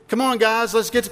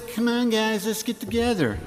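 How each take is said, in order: First: High, eager schoolkid voice; acted, high-pitched appeal to friends; child rallying friends. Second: High, whiny-copycat taunt; high playground mockery; mocking echo. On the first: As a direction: play a kid gathering the gang. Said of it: "this idea of mocking". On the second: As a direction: mimic them back to annoy them. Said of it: "I still do that to my kids".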